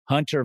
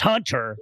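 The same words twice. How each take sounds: First: The name is said plainly, without extra energy. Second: The name is said with a lively, excited twang. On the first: It is used as a first name. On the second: It is used as a last name.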